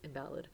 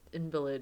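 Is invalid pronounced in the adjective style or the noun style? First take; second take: adjective; noun. First: It is pronounced the way the adjective is. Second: It is pronounced the way the noun is. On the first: The speaker calls it right. "Maybe it's invalid. Because it's not a noun" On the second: The speaker calls it wrong. "invalid is more a noun pronunciation"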